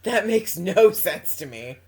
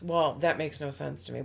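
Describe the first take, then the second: First: Loud, slow, drawn-out stress on "no"; loud laughing protest, "no" stretched out; emphatic repeat. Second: Said in the usual way. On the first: Real, not acted. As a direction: lean hard on "no", slowly, through amusement.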